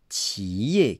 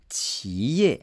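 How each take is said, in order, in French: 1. Le mot est prononcé avec les tons de la Chine continentale. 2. Le mot est prononcé avec les tons de la Chine continentale.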